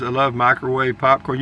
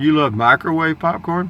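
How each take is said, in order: First: Said in the usual way. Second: "You love microwave popcorn?" pitched up as a question; questioning echo. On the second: Real, not acted. Questions the comment back.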